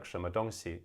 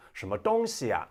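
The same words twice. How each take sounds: First: Said in the usual way. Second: "什么东西啊" loud with a high "东"; high-note tones. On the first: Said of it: "instead of just like". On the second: Shown as a demonstration. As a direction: hit "东" high in "什么东西啊", Beijing style. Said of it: "the high note".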